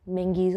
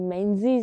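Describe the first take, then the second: First: The middle consonant is an ng sound. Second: The middle consonant is a z sound. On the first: The speaker calls it right. "मिंगीज़ होता है" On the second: The speaker calls it wrong. "मेंजीज़ नहीं"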